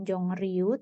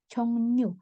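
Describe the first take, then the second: First: The second syllable starts with an r sound. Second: The second syllable starts with an n sound. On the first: The speaker calls it wrong. "dibacanya bukan Jongryu" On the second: The speaker calls it right. "tapi Cheongnu"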